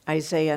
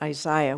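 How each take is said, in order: First: The name is said with an American pronunciation. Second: The name is said with a British pronunciation. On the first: "say it very American today by saying Isaiah" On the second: "not Isaiah, which I tend to do and like to do"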